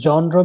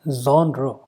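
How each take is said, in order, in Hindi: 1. शब्द की शुरुआत कठोर j ध्वनि से होती है। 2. शब्द की शुरुआत नरम zh ध्वनि से होती है। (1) "जॉनर भी नहीं है" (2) "This is how the word is pronounced"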